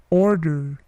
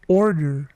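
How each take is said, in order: Both takes have the same delivery.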